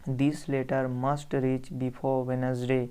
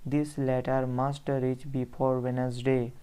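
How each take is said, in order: The two takes are said the same way.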